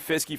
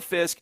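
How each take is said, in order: First: The name ends with an added "ee" vowel. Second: The name ends on a "k" sound. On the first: This is how television commentators said it. The speaker calls it wrong. "T V kept calling him Fisky" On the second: This is how it was said in an interview at his school. The speaker calls it right. "They said Fisk. So I'm going Fisk"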